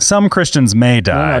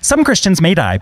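First: It is said in the speaker's normal voice. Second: It is said in a put-on character voice.

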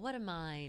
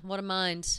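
First: The tone is sweet and admiring. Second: The tone is flat and dismissive. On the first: The listener is impressed by the other person's mind. "It sounds sweet" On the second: The listener brushes the remark off and moves on. "And in reality, it's like, huh"

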